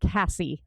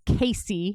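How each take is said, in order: First: The first vowel sounds like the vowel in 'cat'. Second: The first vowel sounds like the vowel in 'day'. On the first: The speaker calls it wrong. "not Cassie" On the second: The speaker calls it right. "My name is Casey"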